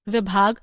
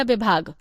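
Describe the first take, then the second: First: Said in the usual way. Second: विभाग with the opening v sounded as b; variant pronunciation. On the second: Shown as a demonstration. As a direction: say विभाग as "bibhag", b for v. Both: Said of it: "शुद्ध उच्चारण है या".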